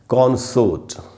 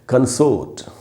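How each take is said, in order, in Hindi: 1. ज़ोर पहले अक्षर पर है। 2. ज़ोर दूसरे अक्षर पर है। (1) "ये वर्ड जब नाउन की तरह यूज़ होगा तो इसका उच्चारण होता है कॉन्सोर्ट" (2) "जब वर्ब की तरह यूज़ होता है तो इसका उच्चारण हो जाता है"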